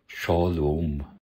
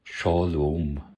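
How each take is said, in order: First: It is said in an ancient Hebrew pronunciation. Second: The same.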